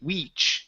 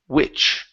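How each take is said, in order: First: The vowel is a long, high ee sound. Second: The vowel is a short, lower i sound. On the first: The speaker calls it wrong. "You don't want to say weech" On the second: The speaker calls it right. "you want to use the short I"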